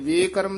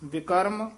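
First: The first vowel sounds like a long 'e'. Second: The first vowel sounds like a short 'i'. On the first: The speaker calls it wrong. "ਲਾਂ ਵੀ ਨਹੀਂ ਲਾ ਦੇਣੀ। ਵਿਕਰਮ ਨਹੀਂ ਕਹਿਣਾ" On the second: The speaker calls it right. "ਵਿਕਰਮ ਕਮਾਏ"

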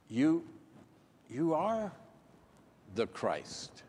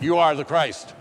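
First: It is said hesitantly, with halting pauses. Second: It is said smoothly, with sure confidence.

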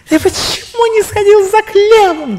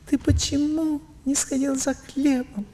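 First: It is said with strong, intense emotion. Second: It is said calmly, with much weaker emotion. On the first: The emotion hits the listener hard. The speaker calls it wrong. "вот так хотела сказать" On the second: The listener can take it in and respond. The speaker calls it right. "раз пять слабее"

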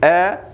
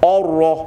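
First: The opening vowel is pronounced light and thin. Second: The opening vowel is pronounced heavy and thick. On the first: The speaker calls it right. "tapi a" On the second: The speaker calls it wrong.

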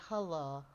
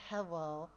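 First: The first vowel sounds like 'huh'. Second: The first vowel sounds like 'heh'. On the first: The speaker calls it right. "I say hello. H-U-L-L-O" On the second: The speaker calls it wrong. "I don't say hello"

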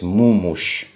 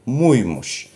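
First: The two syllables join with no y sound. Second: A y sound separates the two syllables. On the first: The speaker calls it wrong. "чтобы не получалось мумущ. Так по-турецки не звучит" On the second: The speaker calls it right. "поэтому муй-мущ"

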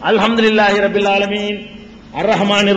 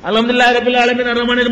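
First: There is a clear pause after 'alamin'. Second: It runs on with no pause after 'alamin'. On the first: Each verse is recited separately. The speaker calls it right. "எப்படி ஓதல பெருமானார் ஸல்லல்லாஹு அலைஹி வஸல்லம்?" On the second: The verses are rushed together. The speaker calls it wrong. "1 மணி நேரத்துக்குள்ள 1.5 ஜுஸ் ஓதுனா அவர் என்ன ஓதுவாரு, எப்படி ஓதுவாரு?"

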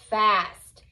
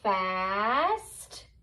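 First: The word is said quickly as one. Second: The word is stretched out slowly. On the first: "and then reading it fast like a real word" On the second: "reading the word slowly"

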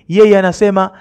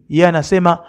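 Both takes have the same delivery.

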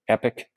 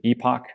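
First: The word is said like 'epic'. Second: The word is said like 'ee-pock'.

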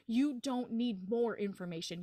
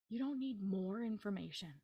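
First: It is said loudly. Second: It is said at normal volume.

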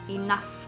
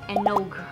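First: The word ends with an f sound. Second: The word ends with a hard g sound. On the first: It is said the way it is really pronounced. The speaker calls it right. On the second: It is read the way it is spelled. The speaker calls it wrong.

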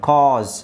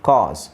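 No difference in how they are said.

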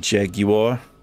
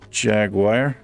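First: It is pronounced with a British accent. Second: It is pronounced with an American accent.

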